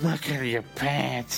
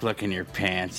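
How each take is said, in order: First: It is said in a put-on Irish accent. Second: It is said in the speaker's plain accent.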